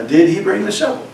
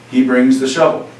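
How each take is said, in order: First: "did he bring the shovel" climbing high on "shovel"; rising question. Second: "He brings the shovel" level, with no rise; monotone statement. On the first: Teacher shows students how a question sounds, pitch rising. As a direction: ask it, voice going up at the end. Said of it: "The pitch of my voice goes up". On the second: Teacher models making a statement for students, monotone. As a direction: state it as a bare observation. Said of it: "my voice stays very monotone". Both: Shown as a demonstration.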